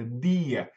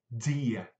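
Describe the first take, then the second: First: The D is strong with no puff of air. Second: The D is released with a puff of air. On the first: "esse D é forte, di. Não tem sopro" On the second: "Já no interior de Pernambuco é dia"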